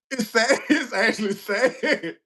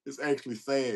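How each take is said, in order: First: High, laughing through the words; giggling while insisting on it. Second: Said in the usual way. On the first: Real, not acted. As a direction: say it through real helpless laughter. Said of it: "And I'm laughing now".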